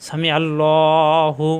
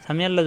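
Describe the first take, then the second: First: "সামি আল্লাহু" slowly drawn out with the ain pressed from the throat; slow recitation with a throat-pressed ain; correct throat ain. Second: "সামি আল্লাহ" with a light hamza and no throat ain; "সামি আল্লাহ" with a glottal stop instead of the ain; wrong hamza version. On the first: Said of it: "কণ্ঠ দিয়ে চাপ দিয়ে". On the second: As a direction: say "সামি আল্লাহ" plainly, the mistake. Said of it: "আইনটা কী হয়ে যায়? হামজা হয়ে যায়।". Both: Shown as a demonstration.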